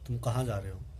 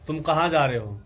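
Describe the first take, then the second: First: It is said low and very softly. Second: It is said at medium level, a bit louder.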